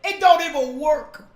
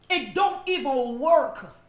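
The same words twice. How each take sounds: First: Louder punch. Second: Slow, deliberate repeat of It don't even work; slower, measured restatement. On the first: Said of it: "repeated slower". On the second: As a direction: lay it out slowly, word by word. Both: Shown as a demonstration.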